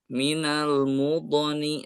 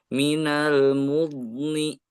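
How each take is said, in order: First: The dhad bounces with an echoing release. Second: The dhad is pressed and held without bouncing. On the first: The speaker calls it wrong. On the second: The speaker calls it right. "Seharusnya ... memanjang aja, sukun memanjang"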